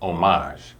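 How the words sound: It is said with a French pronunciation. "in French they say homage"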